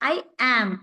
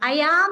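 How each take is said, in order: First: Am starts without any y sound. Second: A y sound links I into am. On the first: The speaker calls it right. "ഐ ആം എന്ന് പറയാം" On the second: The speaker calls it wrong. "യാം എന്ന് ഉച്ചരിക്കേണ്ട ... ഐ ആം എന്ന് പറയണ്ട"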